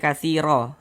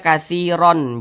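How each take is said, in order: First: The word ends with a long vowel. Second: The word ends with an n sound. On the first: The speaker calls it right. "tapi dibaca katsiro" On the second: The speaker calls it wrong. "jangan dibaca katsiron"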